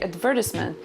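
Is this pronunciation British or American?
British. It is said with a British pronunciation.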